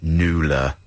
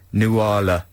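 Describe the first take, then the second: First: "Nuala" squeezed to two syllables, NOO-la; pronounced NOO-la. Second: "Nuala" as three syllables, noo-AH-la; pronounced noo-AH-la. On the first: Giving the other way to pronounce the name, NOO-la. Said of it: "sometimes pronounced Nuala". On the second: Reading brother's snooty text about the name, noo-AH-la. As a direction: say "Nuala" with an open AH in the middle. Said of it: "snooty text from my brother saying". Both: Shown as a demonstration.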